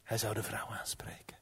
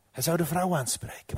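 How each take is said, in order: First: Very soft, secretive storytelling; whispered narration. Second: Said in the usual way. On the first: A narrator's reading. Herneemt het verhaal fluisterend. (fluisterend verteld)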